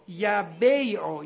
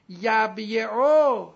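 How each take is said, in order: First: یبیعو slowly as ya-BEY-o; vowel moved to b. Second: یبیعو slowly as yab-ye-o, closed b then y; unshifted form. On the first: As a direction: stretch یبیعو into ya-bey-o, open first syllable. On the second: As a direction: sound out یبیعو loudly, yab-YE-oo. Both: Shown as a demonstration.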